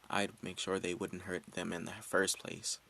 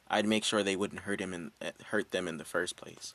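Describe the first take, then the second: First: It is said quietly, almost whispered. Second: It is said louder, speaking up.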